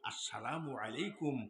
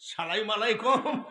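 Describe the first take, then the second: First: The greeting is pronounced fully and carefully. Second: The greeting is clipped and slurred together. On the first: The speaker studied at a madrasa. The speaker calls it right. "সালামটা সহি আছে না?" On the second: The speaker did not study at a madrasa. The speaker calls it wrong. "এই সালাম কি হবে?"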